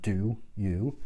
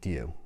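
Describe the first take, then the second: First: The two words are said separately and precisely. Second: The two words are run together as one. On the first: The speaker is formal and precise. "she would have pronounced it do you" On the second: The speaker is young and casual. "being a young girl, would have pronounced it do you"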